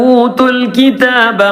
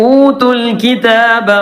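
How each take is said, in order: The two takes are said the same way.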